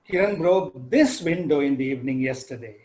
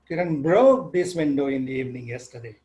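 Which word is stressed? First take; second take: this; broke. First: The stress falls on the word this. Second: The stress falls on the word broke. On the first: It was this particular window, not another one. "So I highlight the word this window" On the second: The window was broken, not painted. "I can move the stress from the first word to the second one"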